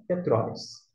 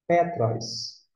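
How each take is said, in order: First: "Petróis" stressed on TRÓIS, lower pitch; stress on second syllable. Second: "Petros" stressed on PE, falling tune; stress on first syllable. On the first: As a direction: put the weight on TRÓIS in "Petróis". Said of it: "Se acento tivesse no O". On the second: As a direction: say "Petros" with PE strong, ros light. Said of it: "Por que é Petros e não Petróis?". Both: Shown as a demonstration.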